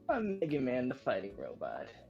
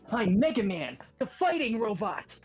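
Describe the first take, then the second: First: It is said in the speaker's ordinary voice. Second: It is said in a put-on character voice. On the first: "I don't want to do the voice at the moment" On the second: "A nice little sneak peek at our Mega Man"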